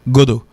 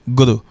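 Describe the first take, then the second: First: The word sounds like godo, in another accent. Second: The word sounds like godo, in another accent.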